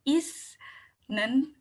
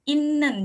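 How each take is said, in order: First: The middle consonant is an 's' sound. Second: The middle consonant is a doubled 'n' sound. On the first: The speaker calls it wrong. "bukan isnen" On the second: The speaker calls it right. "n-nya ada dua gitu"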